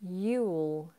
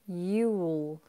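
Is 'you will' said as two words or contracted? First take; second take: contracted; contracted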